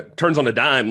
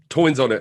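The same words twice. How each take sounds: First: Said in the usual way. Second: "toins" said with an oi sound, a slip of the tongue; slipped word. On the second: Real, not acted. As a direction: trip over "toins", say it with oi like a New York accent.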